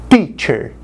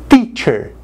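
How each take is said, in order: The two takes are said the same way.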